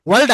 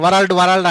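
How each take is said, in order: First: వరల్డ్ said with a silent r, like vald; correct pronunciation. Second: వరల్డ్ said with the r sounded, va-ral-d; wrong pronunciation. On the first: Teacher giving students the correct way to say world. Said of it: "వరల్డ్ అనాలి". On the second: Teacher showing the mistake many students make with world. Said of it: "అది అనకూడదు". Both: Shown as a demonstration.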